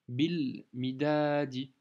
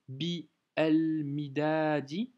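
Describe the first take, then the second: First: The article is joined straight onto the first word. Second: The article is said as a separate syllable. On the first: The speaker calls it right. "tu fais la liaison directement" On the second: The speaker calls it wrong. "Tu vas pas t'amuser à prononcer bi el midadi"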